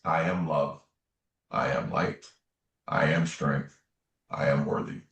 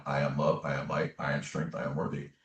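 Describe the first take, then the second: First: Spaced-out, low-pitched affirmations; measured affirmation. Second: Soft, low run of affirmations; inward self-affirmation. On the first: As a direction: say each affirmation separately, pausing between them. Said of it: "Can you just say this?". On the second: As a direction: recite it quietly, as if in your own head. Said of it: "saying in my mind". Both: Retold or imitated.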